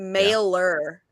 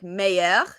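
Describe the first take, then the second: First: The middle has a clear L sound. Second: The middle has a Y sound, no L sound. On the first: The speaker calls it wrong. "people pronounce the silent L's" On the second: The speaker calls it right. "like meilleur"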